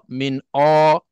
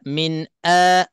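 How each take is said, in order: First: The vowel is dark, deep and rounded. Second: The vowel is light, thin and forward. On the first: The speaker calls it wrong. "jangan ... ke dalam ... semakin kurang fasih" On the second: The speaker calls it right. "nak kena jelaskan dan nak kena tipiskan"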